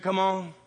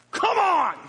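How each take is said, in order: First: Said in the usual way. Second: High loud yell kicking the horse; desperate high holler. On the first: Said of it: "when they said". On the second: Retold or imitated. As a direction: scream it out to get the horse moving. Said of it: "I was like".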